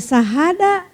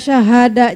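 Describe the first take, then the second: First: The word begins with a plain 's' sound. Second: The word begins with an 'sh' sound. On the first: The meaning changes to something else entirely. The speaker calls it wrong. "jadi sahada" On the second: It means bearing witness. The speaker calls it right. "Kita baca syahada"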